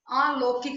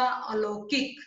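First: अलौकिक said "aalokik"; wrong long vowel. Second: Said in the usual way. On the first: Shown as a demonstration. Teacher correcting a mistake, अलौकिक with long opening aa. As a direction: stretch the first vowel of अलौकिक to aa. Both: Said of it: "नहीं होता".

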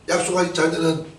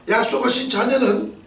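First: Said in the usual way. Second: 약속하신 high and punched; stress on 약속하신. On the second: Shown as a demonstration. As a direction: hit 약속하신 hard and high.

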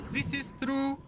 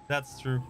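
First: High-pitched put-on German accent; playful, squeaky mock German. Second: Said in the usual way. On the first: Repeats agreement in mock accent.

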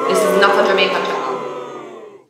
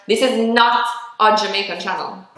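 First: Same line again with a Jamaican accent; Jamaican accent repeat. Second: Said in the usual way. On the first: Shown as a demonstration. Insisting to viewers about the channel, Jamaican accent.

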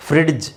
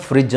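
First: ಫ್ರಿಡ್ಜ್ with an audible hard d before j; D sounded. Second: ಫ್ರಿಡ್ಜ್ as a smooth "frij", no d; D silent. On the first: Teacher showing what to correct, ಫ್ರಿಡ್ಜ್ with the d pronounced. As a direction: say ಫ್ರಿಡ್ಜ್ as "frid-j". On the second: Teacher giving the form to say, ಫ್ರಿಡ್ಜ್ with silent d. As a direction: glide from the vowel into j in ಫ್ರಿಡ್ಜ್. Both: Shown as a demonstration. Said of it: "ಅದನ್ನ ಫ್ರಿಡ್ಜ್ ಅಂತ ಹೇಳ್ಬೇಕು".

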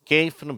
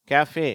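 First: கேஃப்னு read as one syllable, "kayf"; கேஃப்னு with long ay, ending on f; spelling pronunciation. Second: கேஃபே in two syllables, "ka-fay"; கேஃபே ending in an open "fay"; French-derived pronunciation. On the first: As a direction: say கேஃப்னு as English spelling suggests, silent e. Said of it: "ஆனா உண்மையில அவை கேஃபே". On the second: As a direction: sound the final e of கேஃபே as "ay". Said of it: "கேஃபே என்று உச்சரிக்கப்படுகிறது". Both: Shown as a demonstration.

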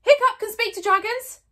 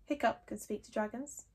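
First: Loud high shout; shouted very loudly. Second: Softly from the crowd; very quietly. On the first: Fishlegs announcing to the whole crowd, shouting. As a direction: yell it for everyone to hear. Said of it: "shouted Fishlegs very loudly indeed". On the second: Fishlegs from the crowd, speaking very quietly. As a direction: say it under your breath. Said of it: "very quietly from the middle of the crowd". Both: Acted.

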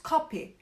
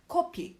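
First: "Kapi." with a vowel halfway between o and a; coffee word kapi, vowel between o and a. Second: "Kopi." said with a clear rounded o. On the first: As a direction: blend o and a in "Kapi.". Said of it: "O'la A'yı beraber söylüyorsunuz". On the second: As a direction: say "Kopi." with an o, the snot word. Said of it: "Kopi arkadaşlar sümük demek". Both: Shown as a demonstration.

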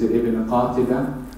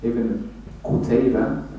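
First: "Qatiba" in place of "Qutayba"; mispronounced name. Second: "Qutayba" with "u" first and an "ay" in the middle; corrected name. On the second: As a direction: say "Qutayba" carefully, as just corrected. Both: Real, not acted.

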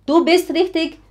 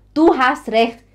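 First: Higher, louder quiz on Du bist richtig; teacher quizzing the wrong form. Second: Louder quiz on Du hast recht; teacher quizzing the right form. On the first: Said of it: "Não". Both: Shown as a demonstration. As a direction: ask it as a test question.

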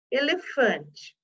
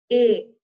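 First: Elefante split slowly into e-le-fan-te; slow broken Elefante; syllable by syllable. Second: Said in the usual way. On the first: Shown as a demonstration. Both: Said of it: "teacher separating syllables".

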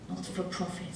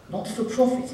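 First: Softer sarcastic repeat of Not for profit; sarcastic undertone. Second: Said in the usual way. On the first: Shown as a demonstration. Comic muttering Not for profit to the crowd with a soft sarcastic sneer. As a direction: drop the voice and sneer.

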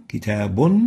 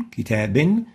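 First: كتاب said as kitabun, ending in un; tanween with damma. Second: كتاب said as kitaban, ending in an; tanween with fatha. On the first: A teacher demonstrating the damma tanween to students. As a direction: end كتاب on a clear -un. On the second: A teacher demonstrating the fatha tanween to students. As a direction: end كتاب on a clear -an. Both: Shown as a demonstration. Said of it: "ونطقها بنون في الآخر".

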